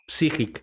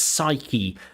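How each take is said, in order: First: It is pronounced like the Russian word. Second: It is pronounced the standard English way. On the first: The speaker calls it wrong. "you speak like the word in Russian" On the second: The speaker calls it right. "This word in English is psyche"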